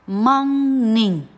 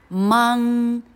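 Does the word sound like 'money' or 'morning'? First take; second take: morning; morning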